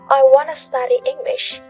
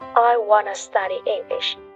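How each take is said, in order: First: Want to is said as two full words. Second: Want to is reduced to wanna.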